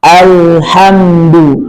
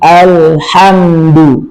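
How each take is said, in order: The two takes are said the same way.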